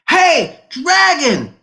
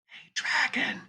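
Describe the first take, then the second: First: It is shouted very loudly. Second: It is whispered very softly.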